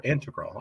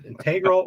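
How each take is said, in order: First: Integral said IN-tuh-grul; integral stressed at the start. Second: Integral said in-TEG-ral; integral stressed in the middle. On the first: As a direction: stress the first syllable of integral. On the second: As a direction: stress the second syllable of integral. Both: Shown as a demonstration. If it's i.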